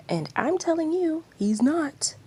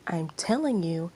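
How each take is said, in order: First: Higher and louder, defiant; heated retort. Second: Said in the usual way. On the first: Acted. Yashiro snapping back at Aino, high and loud. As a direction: fire it straight back at her.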